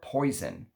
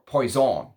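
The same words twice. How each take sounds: First: It is pronounced the English way. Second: It is pronounced the French way.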